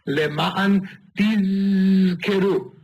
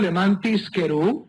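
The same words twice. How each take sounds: First: The middle consonant is a buzzing 'z' sound. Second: The middle consonant is a hissing 's' sound. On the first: So that you remember. The speaker calls it right. "esta zayin tiene que ser verdaderamente pronunciada" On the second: So that I profit. The speaker calls it wrong. "que no se confunda con una samech"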